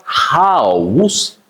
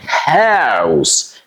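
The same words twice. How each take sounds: First: "house" in two parts, ha-oos; wrong "house", open AH then oos; mispronounced house. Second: "house" with a fronted a-ow, like "haows"; "house" drawn out with a fronted OW; correct OW vowel. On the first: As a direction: say "house" slowly with a broad AH. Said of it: "So it's not house". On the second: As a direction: start the vowel of "house" as in "hat". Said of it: "you say ow". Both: Shown as a demonstration.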